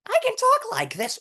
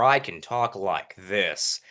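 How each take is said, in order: First: Squeakily high demonstration voice; very high pitch. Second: Slow, deep demonstration voice; low pitch. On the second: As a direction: drop the pitch and drag it out. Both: Shown as a demonstration.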